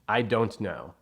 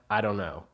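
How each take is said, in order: First: Every word is said fully and carefully. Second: The words run together in a reduced form. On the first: This is what courses teach. "the correct language" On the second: This is how people really talk.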